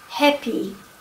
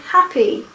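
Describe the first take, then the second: First: The first vowel is an E sound. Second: The first vowel is an open A sound. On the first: The speaker calls it wrong. "they say happy" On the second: The speaker calls it right. "instead of saying happy"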